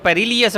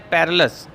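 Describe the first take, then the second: First: An extra 'ee' sound gives it four syllables. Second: It is said with three syllables, no 'ee'. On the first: The speaker calls it wrong. "इसको पेरिलियस पढ़ते हैं, पेरिलियस गलत है" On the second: The speaker calls it right. "Correct pronunciation क्या है?"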